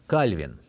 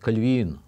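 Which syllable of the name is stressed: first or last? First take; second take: first; last. First: The stress is on the first syllable. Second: The stress is on the last syllable. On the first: This is the usual everyday form. The speaker calls it wrong. "Обычно мы говорим Кальвин" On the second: This follows the French origin of the name. The speaker calls it right. "более правильно говорить Кальвин. Он француз, и поэтому ударение должно быть на последнем слоге"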